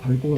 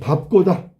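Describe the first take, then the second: First: The second syllable starts with a plain g sound. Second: The second syllable starts with a tense kk sound. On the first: The speaker calls it wrong. "밟고가 아니라" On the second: The speaker calls it right. "밥꼬지"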